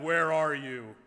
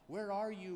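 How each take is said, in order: First: It is spoken loudly and powerfully. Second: It is spoken softly and gently. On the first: "God thundering in his powerful voice" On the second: "softly, tenderly calling"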